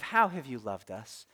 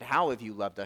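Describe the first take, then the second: First: It is asked in a tender, romantic tone. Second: It is asked in a frustrated, demanding tone.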